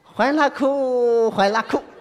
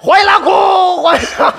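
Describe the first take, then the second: First: It is said quietly, at a low pitch. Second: It is said loudly, at a high pitch.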